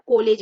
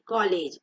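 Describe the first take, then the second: First: कॉलेज as "ko-lej", louder; कॉलेज with a closed o, emphatic; wrong closed o. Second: कॉलेज as "kaw-lej", pitched lower; कॉलेज with vowel between aa and o; correct open vowel. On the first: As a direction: punch out कॉलेज with a long pure o. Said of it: "कॉलेज नहीं". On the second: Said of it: "ऐसे पढ़ते हैं". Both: Shown as a demonstration.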